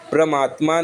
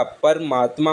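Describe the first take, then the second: First: परमात्मा misspoken as "pra-maatma"; wrong pra opening. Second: परमात्मा as "par-maatma"; vowel between p and r in परमात्मा; correct par opening. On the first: Teacher showing the error, परमात्मा starting "pra". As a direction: run p into r in परमात्मा. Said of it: "परमात्मा नहीं होता". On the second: Teacher correcting it, परमात्मा starting "par". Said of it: "परमात्मा होता है". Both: Shown as a demonstration.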